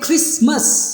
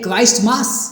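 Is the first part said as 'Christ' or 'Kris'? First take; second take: Kris; Christ. First: It is said as one reduced word, Krismus. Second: It is said as two full words, Christ mass. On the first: This is how the word is actually said. "हम pronounce करते हैं क्रिसमस" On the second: The word would be Christ plus mass. "Pronounce करना चाहिए क्राइस्ट मास"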